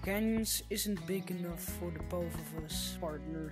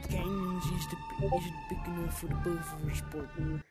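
First: It is said in the speaker's normal accent. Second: It is said in a put-on accent.

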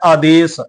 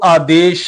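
First: The word ends with a plain 's' sound. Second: The word ends with an 'sh' sound. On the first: The speaker calls it right. "ਬਿੰਦੀ ਤੋਂ ਬਿਨਾਂ ਉਚਾਰਨ ਕਰਨਾ ਹੈ" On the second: The speaker calls it wrong. "ਸੱਸੇ ਪੈਰ ਬਿੰਦੀ ਲਾ ਕੇ ਉਚਾਰਨ ਨਹੀਂ ਕਰਨਾ"

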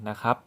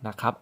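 Both takes have the same delivery.

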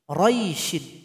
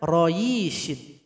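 First: No extra 'yi' sound is added. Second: An extra 'yi' sound is added. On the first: The speaker calls it right. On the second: The speaker calls it wrong.

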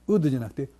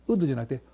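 Both takes have the same delivery.

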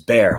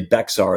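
First: The name is said like the word bear. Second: The name is said with the x sounded. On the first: The speaker is a local. The speaker calls it right. "It's Bear" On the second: The speaker is not a local. The speaker calls it wrong. "don't say Bexar unless you'll know you're not native"

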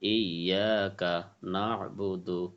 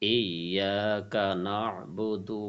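First: Each syllable is said separately with breaks. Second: The syllables are joined in one smooth flow. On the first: "বাঙ্গা বাঙ্গা" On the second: "তারপরে একসাথে"

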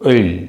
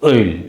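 First: The vowel is a front rounded ö sound. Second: The same.

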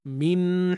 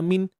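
First: The n carries a clear, sustained nasal hum. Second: The n is clipped quickly with little nasal hum. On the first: The speaker calls it right. "termasuklah dengung tu kan. Min hisa, min hisa, begitulah" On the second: The speaker calls it wrong. "elakkan bunyi macam ni. Perasan tak min tu bunyi yang terlalu laju"

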